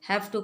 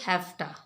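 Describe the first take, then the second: First: Both words are said in full, separately. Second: The words blend into one short word.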